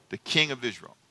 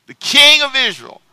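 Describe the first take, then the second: First: Said in the usual way. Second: King hit higher and much louder; stress on King. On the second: Shown as a demonstration. Preacher echoing the verse to the church, punching King. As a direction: repeat it loud, punching King.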